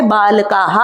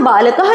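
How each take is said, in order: First: बालकाः with a drawn-out aa before the ending; long final aa. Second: बालकः with a short a before the breathy ः ending; short final vowel. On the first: Teacher shows pupils the plural, long aa in बालकाः. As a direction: stretch the last vowel of बालकाः into "kaa-ha". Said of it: "आ की मात्रा लगा देते हैं". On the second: Teacher shows pupils the singular, short final vowel in बालकः. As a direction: say बालकः, keeping the last a short. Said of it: "अगर बालकाः आ की मात्रा लगा देते हैं". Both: Shown as a demonstration.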